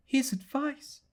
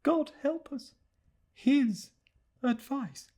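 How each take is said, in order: First: High, wondering echo rising on His; high private murmur, dawning dread; puzzled murmur to herself. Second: High, hushed lament, leaning on His then falling on advice; despairing murmur to herself. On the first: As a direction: turn the words over as if struck by them, lifting at the end. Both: Acted. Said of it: "she said to herself".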